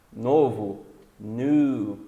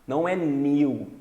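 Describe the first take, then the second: First: "new" said like "nu"; American new. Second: "new" with a y glide, British; British new contrast. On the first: Teacher giving the American "new" to students. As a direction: say "new" as "nu", no y glide. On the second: Teacher contrasting the British "new" for students. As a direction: say "new" as "nyu". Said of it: "Sei que vocês aprenderam new". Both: Shown as a demonstration.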